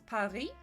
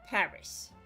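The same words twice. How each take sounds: First: The stress is on the second syllable. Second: The stress is on the first syllable. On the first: This is the French way of saying it. "in French it's Paris" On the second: This is the English way of saying it. "And you punctuate the A"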